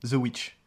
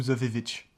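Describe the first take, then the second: First: Said in the usual way. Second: The Vivitch with a doubled vi sound; mock pronunciation. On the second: Shown as a demonstration. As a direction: say The Witch as The Vivitch. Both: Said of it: "ou The Vivitch".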